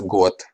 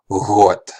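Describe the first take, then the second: First: It starts with a hard stop g. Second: It starts with a soft fricative gh.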